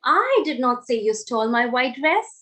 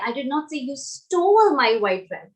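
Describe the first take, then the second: First: The stress falls on the word I. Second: The stress falls on the word stole. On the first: Someone else said it. "Now I am stressing on the word I" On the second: The listener did something else with it. "So maybe you did something else with it"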